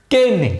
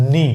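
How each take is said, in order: First: "কেনি" as kay-nee, higher and falling; wrong "কেনি", silent K said aloud; K pronounced. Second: "নি" as just nee, no K; silent K. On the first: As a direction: demonstrate the mistake "কেনি" with a full kay. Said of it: "কিন্তু এর উচ্চারণ কেনি নয়". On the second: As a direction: start "নি" directly on the N. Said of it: "এর উচ্চারণ হবে শুধুই". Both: Shown as a demonstration.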